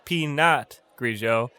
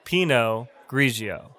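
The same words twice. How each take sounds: First: Pinot Grigio with a sounded t, pee-NOT; wrong pronunciation. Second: Pinot Grigio with silent t, PEE-no GREE-zhee-oh; correct pronunciation. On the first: Teacher shows the mistake to avoid, mispronounced t. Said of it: "Not Pinot Grigio". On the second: Teacher corrects the mistake, careful silent-t pronunciation. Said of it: "It's pronounced Pinot Grigio". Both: Shown as a demonstration.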